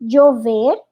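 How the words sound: The ll sounds like a j or y. "o acento colombiano é já, je, ji, joju. Por exemplo"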